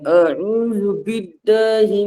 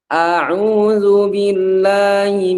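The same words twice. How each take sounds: First: The vowels are said with the mouth nearly closed. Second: The vowels are said with the mouth wide open. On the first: The speaker calls it wrong. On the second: The speaker calls it right. "dibuka a"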